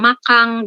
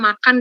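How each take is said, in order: First: The word ends with an 'ng' sound. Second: The word ends with an 'n' sound.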